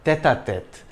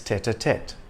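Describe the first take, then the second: First: The T sounds are soft, French style. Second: The T sounds are hard, English style. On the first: "The T is soft in French" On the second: "but in English it's"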